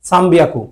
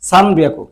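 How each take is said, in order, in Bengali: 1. 'byaku'-এর আগে ম ধ্বনি আসে। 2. 'byaku'-এর আগে ন ধ্বনি আসে। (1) "এই যেখানে একটা মর মতো উচ্চারণ আসে" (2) "যদি এন এর উচ্চারণ বলেন সমস্যা নাই"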